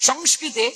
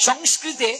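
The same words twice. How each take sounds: Both takes have the same delivery.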